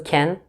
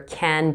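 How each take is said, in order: First: The word has a reduced, 'ken'-like vowel. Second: The word has a full, open vowel.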